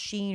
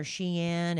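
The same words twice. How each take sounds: First: "Shein" said as one syllable, like "sheen". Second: "Shein" split in two, "SHEE-in"; Shein as two syllables. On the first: Unsure shopper mom trying a brand name, "Shein" as "sheen". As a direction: say "Shein" to rhyme with "green". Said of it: "I don't know if it's pronounced". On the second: Unsure shopper mom trying a brand name, "Shein" as "SHEE-in". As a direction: say "Shein" as "she" plus "in". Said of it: "pronounced Shein or Shein". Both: Shown as a demonstration.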